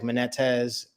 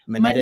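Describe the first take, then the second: First: The name is said in a Southern accent. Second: The name is said in a plain Northern way. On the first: "with the Southern accent, they'll say like" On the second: "I say it Monetis"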